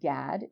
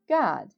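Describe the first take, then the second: First: The vowel is an English-style short a. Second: The vowel is an open ah sound. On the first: The speaker calls it wrong. "how people like to say in English" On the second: The speaker calls it right. "it's pronounced Gad"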